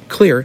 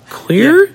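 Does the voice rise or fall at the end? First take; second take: falls; rises. First: The voice falls at the end, like a statement. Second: The voice rises at the end, like a question.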